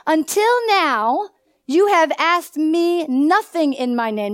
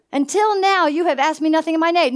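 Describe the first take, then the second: First: Slow, drawn-out Until now; slow preacher's emphasis; slow emphatic reading. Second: Fast run through Until now; quicker repeat. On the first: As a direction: stretch out the verse to make it sink in. Verse read slowly, emphatic. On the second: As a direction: rattle off the verse the second time. Same verse repeated faster. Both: Acted.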